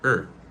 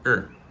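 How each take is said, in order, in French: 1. Le mot est réduit à une voyelle faible. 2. Le mot est réduit à une voyelle faible.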